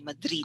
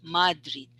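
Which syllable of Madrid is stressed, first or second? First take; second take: second; first. First: The stress is on the second syllable. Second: The stress is on the first syllable. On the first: The speaker calls it right. "the stress is on the second, so it's quick" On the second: The speaker calls it wrong. "don't say Madrid"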